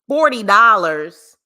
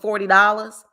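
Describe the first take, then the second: First: It is said in a Cali accent. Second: It is said in the speaker's usual accent.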